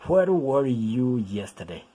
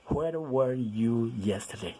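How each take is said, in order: First: Slow, clear "Where were you yesterday?"; slow model reading. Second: Slow model reading. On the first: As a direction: say each word apart for learners. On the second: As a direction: repeat it slowly for the class. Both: Shown as a demonstration. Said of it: "lo vamos a pronunciar where".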